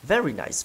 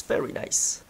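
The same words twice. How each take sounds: First: Said in the usual way. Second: Very nice whispered softly. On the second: Real, not acted. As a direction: breathe very nice unvoiced.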